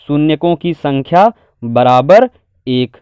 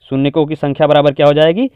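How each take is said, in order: First: Measured, word by word; slow dictation. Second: Said in the usual way. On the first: Shown as a demonstration. Teacher writing the answer out in Hindi, slow dictation. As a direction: spell out the answer slowly for writing. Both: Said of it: "Hindi में लिखेंगे".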